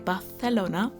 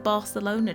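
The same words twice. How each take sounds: First: Barcelona is said with a Spanish pronunciation. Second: Barcelona is said with an English pronunciation. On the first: The speaker calls it right. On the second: The speaker calls it wrong.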